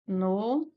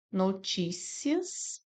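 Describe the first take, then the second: First: Noticias split as no-tí-ci-as, tí stressed; alternate syllable split. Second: Notícias drawn out slowly, no-tí-cias, tí stressed; slow syllable split. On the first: Teacher showing the second split of Noticias. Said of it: "E podemos separar também dessa forma". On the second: Teacher slowly splitting notícias as a paroxytone. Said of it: "Nós temos aqui a primeira forma". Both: Shown as a demonstration.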